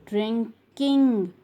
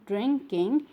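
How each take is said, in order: First: "drinking" split, with a long final ing; split syllables. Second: Said in the usual way. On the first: Shown as a demonstration. Teacher showing class the I N G ending, stretched. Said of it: "We use I N G". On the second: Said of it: "write I N G with drink".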